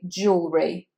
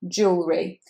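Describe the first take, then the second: First: The word is said with just two syllables. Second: The word is said with just two syllables.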